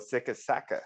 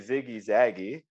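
First: It is said the original German way. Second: It is said the common anglicized way. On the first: "But the actual, they go Sicka Sacka" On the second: "we commonly say Ziggy Zaggy"

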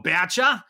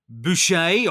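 First: The name is said with an Australian pronunciation. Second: The name is said with a non-Australian pronunciation.

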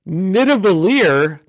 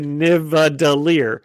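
First: The d sound comes before the v sound. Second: The v sound comes before the d sound. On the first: The speaker calls it right. "Saying it correctly" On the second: The speaker calls it wrong. "He says the V instead of the D"

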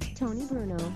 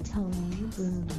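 First: The name is said quickly. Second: The name is said slowly.

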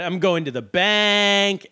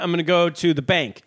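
First: The last word is drawn out long. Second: The last word is said short and plain.

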